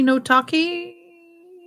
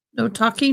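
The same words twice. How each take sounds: First: High, very slow singsong; singsong drawn out. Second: Said in the usual way. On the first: Pretend. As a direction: stretch it out in a teasing singsong. Streamer repeating phrase playfully.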